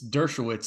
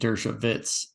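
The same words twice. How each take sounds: First: The name is pronounced the American English way. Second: The name is pronounced the German way. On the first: This is how it is said in America. "I think it's Dershowitz in America" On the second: This is how it would be said in German. "in German, yeah, you would say, I think Dershowitz"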